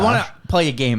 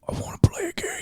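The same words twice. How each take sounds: First: It is said in a plain everyday voice. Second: It is said in a put-on villain voice.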